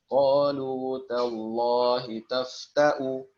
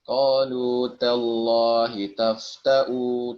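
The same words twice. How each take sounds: First: The vowel in tafta'u is kept short. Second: The vowel in tafta'u is drawn out long. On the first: The speaker calls it right. "Jadi satu harokat biasa aja dia" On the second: The speaker calls it wrong. "Jadi jangan sampai dibaca"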